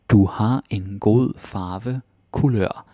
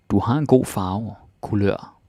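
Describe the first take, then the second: First: Slow for learners. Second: Said in the usual way. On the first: Shown as a demonstration.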